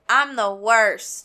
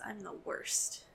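First: It is said loudly, almost yelled. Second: It is said at a normal volume.

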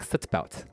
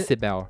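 First: Every consonant is crisply and forcefully enunciated. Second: The consonants are relaxed, in a natural local way. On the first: It imitates trained, unnatural airline-staff speech. The speaker calls it wrong. "you have to enunciate all your consonants" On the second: It is how locals naturally say it. The speaker calls it right. "we say sit belt"

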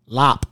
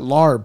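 First: The word ends with a p sound. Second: The word ends with a b sound. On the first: The speaker calls it right. "It's called lop, all right?" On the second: The speaker calls it wrong. "It's not larb, people"

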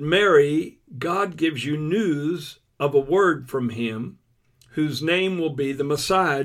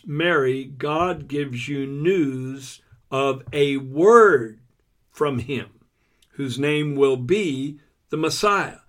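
First: It is read at normal speed. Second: It is read slowly and deliberately.

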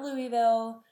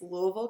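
First: It is said the way outsiders on TV say it. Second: It is said the way people from there say it. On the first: The speaker calls it wrong. "It's not Louisville or any other way that you see people on TV saying it" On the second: The speaker calls it right. "I am saying the correct way to say Louisville"

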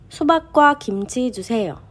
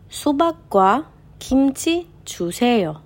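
First: The sentence is read at the fastest pace. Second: The sentence is read at a faster pace. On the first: "קצת יותר מהר" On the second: "קצת יותר מהר"

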